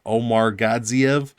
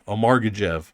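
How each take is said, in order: First: The surname is said with more syllables. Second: The surname is squeezed into fewer syllables. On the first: The speaker calls it right. "That's too many syllables for me" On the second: The speaker calls it wrong. "that's ridiculous pronunciation"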